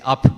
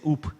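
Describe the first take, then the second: First: The vowel is a short 'uh' sound. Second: The vowel is a rounded 'oo' sound. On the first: The speaker calls it wrong. "They don't say up" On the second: The speaker calls it right. "the Scottish pronounce it properly. They say oop"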